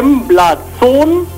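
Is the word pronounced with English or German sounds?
German. The word is read out with German sounds. The speaker calls it wrong. "So würde man es aussprechen, wenn man es lesen würde"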